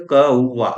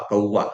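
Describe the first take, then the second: First: कौवा said firmly, syllables held apart; sounded-out कौवा. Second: Said in the usual way. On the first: Shown as a demonstration. Teacher showing students how to spell a word, sounding it out firmly. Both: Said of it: "कौवा कैसे लिखबे?".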